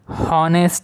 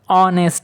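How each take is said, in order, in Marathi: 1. हा शब्द 'h' आवाजाने सुरू होतो. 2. हा शब्द स्वर आवाजाने सुरू होतो. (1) "हॉनेस्ट म्हणत नाही त्याला आपण" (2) "ऑनेस्ट म्हणतो"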